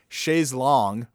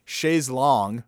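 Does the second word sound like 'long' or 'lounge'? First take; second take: long; long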